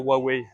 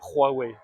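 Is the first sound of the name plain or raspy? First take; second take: plain; raspy. First: The first H is not a raspy throat sound. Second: The first H is a raspy throat sound. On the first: The speaker calls it wrong. "dites pas Huawei" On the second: The speaker calls it right. "le H se dit, euh, se prononce comme le R en français"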